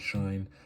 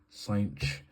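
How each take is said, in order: First: It sounds like the word shine. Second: It sounds like the word cinch. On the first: "I've heard the pronunciation shine" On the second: "I've heard the pronunciation cinch"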